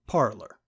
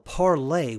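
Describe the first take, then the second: First: The name ends with a hard R sound. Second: The name ends without an R sound. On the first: This is a jab at the site's users. "say the word with the hard R" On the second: This is the pronunciation the makers intended. "Parlay was the intended pronunciation"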